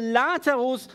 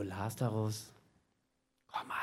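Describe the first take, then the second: First: Calling Lazarus out in a loud voice; a commanding loud call of the name. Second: Much lower and softer, a timid half-hearted call; weak quiet call. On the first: Acted. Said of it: "rief er mit lauter Stimme". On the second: Shown as a demonstration. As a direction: call him meekly, barely audible. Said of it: "Nicht so".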